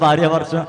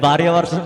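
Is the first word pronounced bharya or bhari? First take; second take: bharya; bharya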